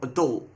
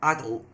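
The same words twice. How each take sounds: First: The word is said in the American way. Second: The word is said in a non-American way. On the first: "that's how they say it over in America" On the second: "not adult"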